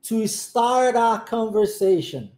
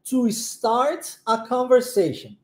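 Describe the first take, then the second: First: 'Start a' links, the t becoming a flap. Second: Each word is separate, with a clear t. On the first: The speaker calls it right. "o start junto com o A e o T se transforma em R" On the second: The speaker calls it wrong. "Se eu for pronunciar essa frase dessa maneira, certinha, bonitinha"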